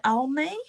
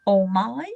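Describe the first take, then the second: First: "Almi" tried as AHL-mee, with questioning rise; unsure pronunciation. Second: "Almi" tried as awl-MY, rising like a question; alternative pronunciation. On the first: Reader unsure of a client's name, tentative "Almi" as AHL-mee. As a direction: say "Almi" as AHL-mee, asking if that's right. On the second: Reader guessing at a client's name, tentative "Almi" as awl-MY. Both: Real, not acted. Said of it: "I wish I knew how to pronounce it".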